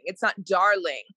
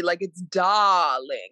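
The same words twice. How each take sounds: First: Said in the usual way. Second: Darling with a long open ah and no R, slowly; drawled dahhling. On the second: Shown as a demonstration. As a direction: stretch darling as "dahhling", no R sound. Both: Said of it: "it's like D A H H L I N G".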